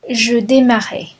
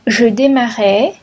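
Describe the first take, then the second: First: « je démarrais » avec la voix qui retombe sur « démarrais »; intonation descendante. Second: « Je démarrais » avec montée sur « démarrais »; intonation montante. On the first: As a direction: dire « je démarrais » de façon conclusive. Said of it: "conjugation drill, closing item". (« je démarrais » sur un ton descendant) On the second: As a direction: dire « Je démarrais » en suspens, voix qui monte. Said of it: "conjugation drill, list intonation". (« Je démarrais » sur un ton montant) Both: Shown as a demonstration.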